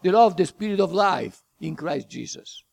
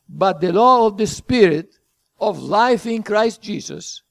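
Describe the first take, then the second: First: The phrase runs on with no pause after Spirit. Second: There is a pause after Spirit before of life. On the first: The speaker calls it wrong. "It's not the law of the Spirit of life in Christ Jesus. That's not what it's saying" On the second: The speaker calls it right. "You have to read it this way"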